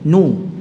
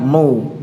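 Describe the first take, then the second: First: The syllable is pronounced thin and light. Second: The syllable is pronounced thick and heavy. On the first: The speaker calls it right. "nu tipis" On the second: The speaker calls it wrong. "bukan no, no tidak"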